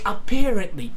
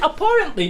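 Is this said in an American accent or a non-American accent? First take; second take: American; non-American. First: It is said in an American accent. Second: It is said in a non-American accent. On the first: "In American accent, you say this word apparently" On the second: "I say like apparently because I just learned to say it that way"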